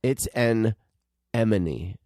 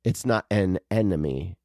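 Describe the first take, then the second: First: "emone" set apart after a pause, M before N; correct pronunciation. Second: "an enemy" as two words, N in place of M; wrong pronunciation. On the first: Working out the name with co-host, correct pronunciation. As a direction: break it as "an ... emone", M sound first. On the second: Showing co-host what it isn't, wrong pronunciation. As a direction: say "enemy" clearly, like a foe. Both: Shown as a demonstration.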